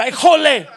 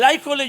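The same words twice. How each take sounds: First: "jole" punched hard on the J, loud and laughing; ay JOLE with the accent landing on the J; stress on the J. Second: Said in the usual way. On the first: Shown as a demonstration. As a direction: hit the "jole" with a strong J sound. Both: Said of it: "lleva acento en la J".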